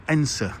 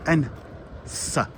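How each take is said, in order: First: "Ensa" as two syllables, EN-suh; local pronunciation. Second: "Ensa" split in two, EN, pause, SA; syllable-by-syllable pronunciation. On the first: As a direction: say "Ensa" as one short word, falling at the end. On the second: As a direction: sound out "Ensa" slowly with a short final A. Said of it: "A, short A". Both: Shown as a demonstration.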